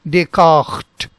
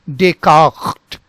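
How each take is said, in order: Both takes have the same delivery.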